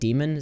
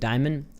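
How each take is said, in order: First: The name sounds like the word demon. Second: The name sounds like the word diamond. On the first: This is how other people say it, matching the demon theme. "people are pronouncing it like Demon" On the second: This is how the speaker's own accent reads it. "I'm pronouncing it Diamond"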